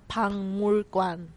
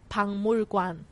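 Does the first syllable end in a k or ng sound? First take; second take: ng; ng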